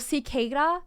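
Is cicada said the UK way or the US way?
US. The word is said the American way. "how they say it in the U S"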